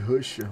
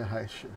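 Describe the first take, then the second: First: The first vowel sounds like in 'rush'. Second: The first vowel sounds like in 'rash'. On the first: The speaker calls it wrong. "eu sempre chamo de Rusher" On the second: The speaker calls it right. "mas é Rasher"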